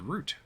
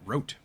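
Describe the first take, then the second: First: The vowel rhymes with boot. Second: The vowel rhymes with boat. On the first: The speaker calls it right. "R O U T E is root" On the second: The speaker calls it wrong. "not rote"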